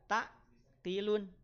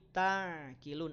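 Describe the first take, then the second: First: The middle consonant is cut off abruptly. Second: The middle consonant flows out slightly. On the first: The speaker calls it wrong. "Tidak dibaca tak kilun" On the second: The speaker calls it right. "tapi ta kilun"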